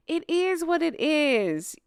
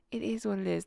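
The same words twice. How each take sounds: First: Sing-song mocking take, slowed; mock the phrase, drawn out. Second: Said in the usual way. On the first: Mocking the couple's saying.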